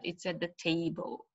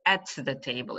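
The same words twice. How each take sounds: First: Soft, linked "at", weight on "table"; unstressed preposition. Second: "at" given full stress; stressed preposition. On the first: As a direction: pass lightly over "at" to "table". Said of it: "We don't, uh, stress". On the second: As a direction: lean on "at" before "the table". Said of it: "It's not". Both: Shown as a demonstration.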